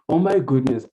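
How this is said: It is said in an excited, lively tone. Something wonderful has happened. "I was so excited"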